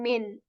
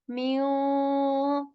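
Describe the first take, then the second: First: The n is fully pronounced with the tongue. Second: The n is hidden, leaving only nasal sound. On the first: The speaker calls it wrong. "I'm not saying min" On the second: The speaker calls it right. "we will just keep the nasal and we will not articulate the sound"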